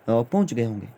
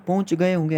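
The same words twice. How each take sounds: First: Said in the usual way. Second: गए raised high, then होंगे falls and lingers in doubt; doubtful guessing tone. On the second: Shown as a demonstration. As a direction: sound unsure, like guessing they have arrived. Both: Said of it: "ऐसे मैं बोल रहा हूँ पहुँच गए होंगे".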